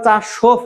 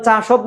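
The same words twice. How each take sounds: First: চাসোফ ending in an unvoiced f; teacher's model, চাসোফ with v turned to f; correct pronunciation. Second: চাসোভ ending in voiced v or bh; teacher's counterexample, চাসোভ with voiced last consonant; wrong pronunciation. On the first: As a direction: say চাসোফ as cha-shof, breath on the final f. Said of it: "উচ্চারণ চাসোফ হচ্ছে". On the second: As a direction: say চাসোভ as spelt, cha-shobh. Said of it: "কিন্তু উচ্চারণ চাসোভ না". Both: Shown as a demonstration.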